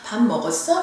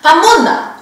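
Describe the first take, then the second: First: It is said softly in a Seoul accent. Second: It is said fast in Gyeongsang dialect, front-stressed.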